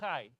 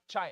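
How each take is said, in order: First: It begins with a throaty kh sound. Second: It begins with an English ch sound. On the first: The speaker calls it right. "it's chai" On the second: The speaker calls it wrong. "It's not chai, like chia, chia pet"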